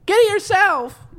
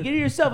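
First: High, loud snippy retort; snippy girlfriend voice. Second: High mock retort. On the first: Retold or imitated. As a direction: snap it back high and loud. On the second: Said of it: "She'll be like".

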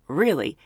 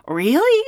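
First: "Really?" falling low and flat; a sly confirming Really? dropping down; knowing answer. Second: "Really?" rising sharply up high; a bright questioning Really?; surprised question. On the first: Clerk teasing the pilot back, falling Really?. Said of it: "And she goes". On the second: Pilot asking the hotel clerk, rising Really?. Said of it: "And he goes". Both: Retold or imitated.

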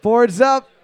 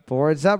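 First: High, loud catchphrase; loud announcer call. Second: Said in the usual way. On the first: Shown as a demonstration. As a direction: call it out to the room. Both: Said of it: "host catchphrase, takes".

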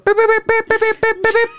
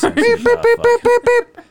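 First: High steady morse beeps; spoken morse code. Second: Very high, loud beeping tones; censor beeps. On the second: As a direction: beep like a censor bleep. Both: Pretend. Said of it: "We're gonna sound like Morse code".

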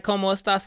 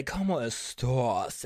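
First: Said in the usual way. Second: Slow, low drawn-out catchphrase impression; Wendy Williams. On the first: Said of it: "saying that "Como estas" a lot". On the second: Shown as a demonstration. Host showing viewers the catchphrase, slow low impression. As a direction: draw each word out long and low. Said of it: "say it like Wendy Williams".

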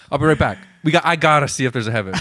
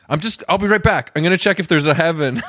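First: Quick chipper reporter sign-off; breezy TV newscaster, rattled off fast; investigative journalist. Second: Bright on-air reporter sign-off, higher pitch; breezy TV newscaster signing off; investigative journalist. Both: Pretend. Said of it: "Like an investigative journalist".

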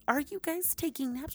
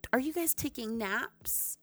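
First: Much higher, pushing the question; even higher repeat. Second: Higher, gasping surprise; mock-shocked question. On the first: To viewers about naps, higher squeaky repeat. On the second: To viewers about naps, higher mock-shocked question. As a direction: ask like it's scandalous news. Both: Real, not acted.

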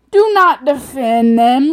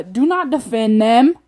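First: Slow, high, very loud insistence; escalated exasperated demand. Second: Loud, exasperated order; exasperated demand. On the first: Ranter insisting to an excuse-making friend, loud exasperated demand. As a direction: hammer out each word in exasperation. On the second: Ranter to a friend making excuses, exasperated demand. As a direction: firmly cut off the excuses. Ranting at people who defend offenders. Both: Real, not acted.

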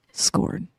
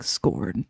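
First: Breathy whispered Scorn right on the mic; close-mic whisper. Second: Very low, gravelly Scorn; deep gravelly voice. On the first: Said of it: "get really close to the mic". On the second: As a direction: growl Scorn from deep in the chest. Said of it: "did it in a very deep, gravelly voice". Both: Retold or imitated.

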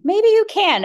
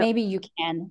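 First: "Maybe you can" thrown up high and loud, mocking; mocking the trainer's distant view, sarcastic. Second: Said in the usual way. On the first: Shown as a demonstration.

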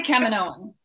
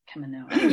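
First: Kaminoan said KAM-in-OH-an, rising; my way of saying it. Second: Kaminoan said tentatively, rising at the end; trying the name Kaminoan. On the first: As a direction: say Kaminoan your own way, confidently. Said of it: "I say Kaminoan". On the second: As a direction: test out Kaminoan like a question. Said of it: "I'm like". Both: Shown as a demonstration.

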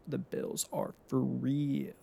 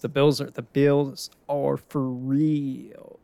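First: Slow, softer echo of the claim; softer repeat. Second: Slow, louder proclamation; emphatic hype. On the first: Fan repeating the Bills verdict to himself, slow and softer. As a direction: let the verdict settle quietly. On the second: Fan hyping the Bills to viewers, slow loud proclamation. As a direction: declare it like a true believer. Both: Real, not acted.

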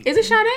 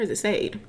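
First: "[name]" with a SH at the start, two syllables; SH pronunciation. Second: "[name]" rhyming with made; one syllable, plain S at the start of "[name]"; one-syllable pronunciation. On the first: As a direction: say "[name]" as shah-DAY. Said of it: "'Cause you add an H". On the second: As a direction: say "[name]" as SAYD. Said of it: "I've heard people say [name] too". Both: Shown as a demonstration.

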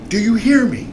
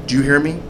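First: High-pitched mock yell, not full volume; retold screaming. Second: Restrained imitation of an officer's demand; stern check, retold. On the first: Officer demanding the driver answer him, high-pitched mock scream. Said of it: "he's screaming". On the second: Officer checking the driver got the warning, restrained stern demand. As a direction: ask it firmly without raising the voice. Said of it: "this is the way he says it".

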